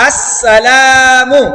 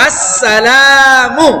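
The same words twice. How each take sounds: First: আসসালামু slow, with the লা held just one beat; one alif length. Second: আসসালামু with the লা stretched very long; drawn out wrong. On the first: Teacher demonstrating the right vowel length. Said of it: "জবরের বাম পাশে খালি আলিফ আছে". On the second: Teacher showing a mistaken long vowel. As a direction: hold the লা in আসসালামু far too long. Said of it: "লা তো কয় আলিফ টান আছে". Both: Shown as a demonstration.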